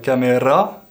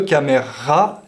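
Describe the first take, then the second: First: The R is rolled with the tongue tip. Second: The R is a strong, forced throat sound. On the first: The speaker calls it wrong. "de rouler le R" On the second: The speaker calls it right.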